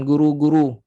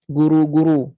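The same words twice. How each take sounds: First: GURU with pouted lips but light RU; thin pouted ru. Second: GURU with heavy, dark RU; thick ru. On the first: Teacher proves pouting stays thin ru. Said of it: "Dah muncung tapi bunyi still tak tebal". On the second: Teacher contrasts with pouting alone, thick ru. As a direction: lift tongue back on guru. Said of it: "bunyi itu tebal". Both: Shown as a demonstration.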